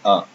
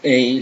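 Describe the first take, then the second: First: The letter is said the French way. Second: The letter is said the English way. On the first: The speaker calls it right. "So it's A" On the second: The speaker calls it wrong. "Don't say A like in English"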